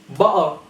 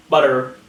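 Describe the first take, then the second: First: "Butter" as "ba'ah"; glottal T. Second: "butter" as "bud-der"; tapped T and R ending on "butter"; sounded T. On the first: Teacher giving an example, "Butter" as "ba'ah". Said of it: "glottal T". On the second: Teacher showing what to avoid, "butter" as "bud-der". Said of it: "not butter". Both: Shown as a demonstration.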